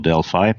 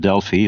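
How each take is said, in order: First: The word is pronounced in an American way. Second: The word is pronounced in a non-American way.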